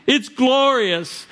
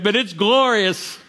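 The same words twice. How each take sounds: First: "It's glorious" very slow and much higher, rising in awe; soaring slow repeat. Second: "glorious" drawn out slowly and stressed; slow down on "glorious" and land it; slow emphasis on glorious. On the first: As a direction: lift "It's glorious" up high and stretch it. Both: Shown as a demonstration.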